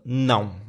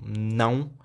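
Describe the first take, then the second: First: It is shouted harshly and angrily. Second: It is shouted harshly and angrily.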